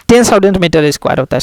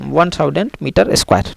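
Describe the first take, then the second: First: ten stressed as the fixed number; correcting himself, putting clear weight on ten; corrected number. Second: Said in the usual way. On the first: Real, not acted. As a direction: lean on ten to correct the slip. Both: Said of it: "sorry".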